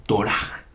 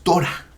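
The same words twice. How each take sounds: First: ToRAH, Torah drawn out slowly on its last syllable; final-syllable stress. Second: TOrah, Torah stressed on its first syllable. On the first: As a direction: land on the "rah" of Torah. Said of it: "es Torah". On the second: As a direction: hit the "To" of Torah, higher. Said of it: "No es Torah". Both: Shown as a demonstration.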